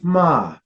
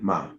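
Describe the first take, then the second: First: The pitch starts high and falls. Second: The pitch has no marked contour. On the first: "your high falling tone" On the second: "Just empty"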